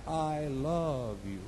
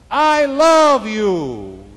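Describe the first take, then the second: First: Soft, drawn-out echo; distant echo. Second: Loud, high, drawn-out holler; screamed out. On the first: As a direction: echo it back quietly from afar. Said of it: "The voice came back". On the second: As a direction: call it slowly across the wilderness. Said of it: "He screamed out". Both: Acted.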